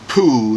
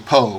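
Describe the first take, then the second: First: The vowel is a long 'oo' sound. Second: The vowel is an 'oh' sound. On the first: The speaker calls it wrong. "they don't say poo" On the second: The speaker calls it right. "they say po with one O"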